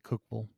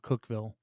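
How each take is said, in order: First: The syllables of the name run together. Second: Each part of the name is said clearly. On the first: "I typically will just say Cookville" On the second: "the other part of me is like enunciate every word"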